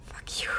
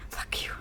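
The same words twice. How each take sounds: The two takes are said the same way.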